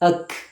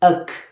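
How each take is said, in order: The two takes are said the same way.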